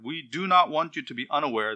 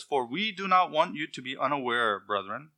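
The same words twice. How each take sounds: First: Not pressed a little; reading with not underlined; stress on not. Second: Said in the usual way. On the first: Shown as a demonstration. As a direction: lean on not to show the double negative. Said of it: "This is a double negative". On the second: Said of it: "That's a reversal".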